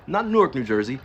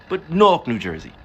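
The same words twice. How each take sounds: First: Said in the usual way. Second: Newark squeezed into one loud, high syllable, like "Nork"; local Newark pronunciation. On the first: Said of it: "but Newark". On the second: Shown as a demonstration. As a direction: punch "Newark" like a local, barely two syllables.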